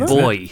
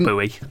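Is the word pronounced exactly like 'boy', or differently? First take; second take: like boy; differently. First: The word sounds exactly like 'boy'. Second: The word sounds different from 'boy'. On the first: "I say boy" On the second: "But some people say buoy"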